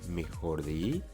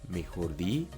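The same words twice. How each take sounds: The two takes are said the same way.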